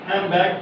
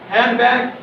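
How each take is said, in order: First: Neighbouring sounds blend into each other. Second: Each sound is said separately and fully.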